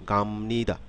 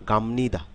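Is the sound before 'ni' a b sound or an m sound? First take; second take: m sound; m sound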